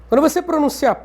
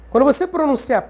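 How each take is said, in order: Both takes have the same delivery.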